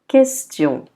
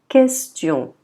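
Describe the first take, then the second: Both takes have the same delivery.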